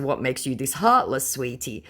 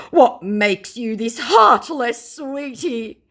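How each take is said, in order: First: Said in the usual way. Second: Slow, high put-on plea; mock scammer. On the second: Scammer trying to lure the target back, hammed-up plea. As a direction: stretch it out, softening on the last word. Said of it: "he responded with".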